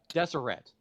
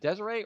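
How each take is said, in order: First: The name ends with a hard T sound. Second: The name ends without a T sound. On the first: The speaker calls it right. "hard T" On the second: The speaker calls it wrong. "Hopefully, I'm pronouncing this right"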